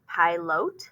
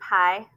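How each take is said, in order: First: The unclear vowel is said as a long vowel. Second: The unclear vowel is said as a short vowel. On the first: "they're going to try it long" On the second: "try it short"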